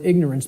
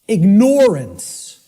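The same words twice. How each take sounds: First: The word ignore is not clearly heard in it. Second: The word ignore is clearly heard in it. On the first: The link to ignoring is lost. The speaker calls it wrong. "because of the way it's pronounced" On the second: It means you're ignoring it. The speaker calls it right. "start pronouncing it ignorance. ... people will hear the word ignore in it"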